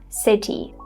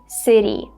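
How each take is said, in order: First: The t is a clear, crisp t sound. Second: The t is a quick flap, like a soft d. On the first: The speaker calls it wrong. "not city" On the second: The speaker calls it right. "this T sound is a flapped sound, so we have to say city"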